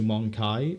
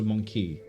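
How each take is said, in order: First: The last syllable sounds like 'eye'. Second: The last syllable sounds like 'ee'. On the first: This is the newer official pronunciation. The speaker calls it wrong. "the way they changed the pronunciation in recent Warhammer" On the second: This is the older pronunciation from earlier games. The speaker calls it right. "the old Dawn of Wars, they will say Monkey"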